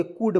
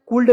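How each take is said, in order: First: कुड with silent L, "kood"; correct pronunciation. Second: कुल्ड with the L sounded, "kuld"; wrong pronunciation. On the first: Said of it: "एल को इसमें silent कर दीजिए". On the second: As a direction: show the error: कुल्ड pronounced "kuld". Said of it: "कुल्ड नहीं पढ़ेंगे". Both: Shown as a demonstration.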